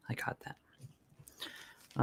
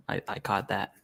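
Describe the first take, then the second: First: Whispered aside, barely voiced; under the breath. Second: Said in the usual way. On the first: Real, not acted. Streamer reacting to a chat comment, whispered aside. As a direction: repeat it softly to yourself in a whisper.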